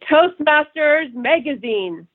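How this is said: The voice is deep, resonant and fuller. The speaker calls it right. "you could just hear my voice. It's deeper. It's more resonant"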